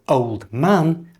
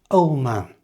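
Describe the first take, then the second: First: The D sound in old is pronounced. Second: The D sound in old is dropped.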